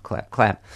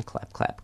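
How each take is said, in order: First: Said in the usual way. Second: Breathy whispered clap clap. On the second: Pretend. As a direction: whisper the claps, no voice. Mock applause for the staff.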